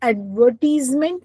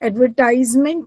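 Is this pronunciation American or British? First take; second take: British; American. First: The word is said with a British pronunciation. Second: The word is said with an American pronunciation. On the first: "I am saying एडवर्टीजमेंट verb पे मैं ज्यादा जोर दे रही हूँ because it is as per British English" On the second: "that is your American English"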